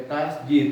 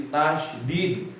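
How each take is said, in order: First: "tasjid" with a j sound and no sh; mispronounced "tasjid", as the mistake to avoid; wrong pronunciation. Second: "tasydid" with sh, then a clear d; slow, corrective "tasydid" with the sh sounded; correct pronunciation. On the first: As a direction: say "tasjid", running the s straight into a j. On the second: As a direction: say "tasydid" slowly, tash-did. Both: Shown as a demonstration. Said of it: "Lain tasjid, tasydid".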